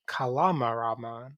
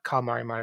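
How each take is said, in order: First: The name is said with all syllables kept. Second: The name is said with one syllable dropped. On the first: This is the official form of the name. The speaker calls it right. "it's Kalamaramon" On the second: This is the shortened form used in a dub. The speaker calls it wrong. "official name is not Kalmarimon"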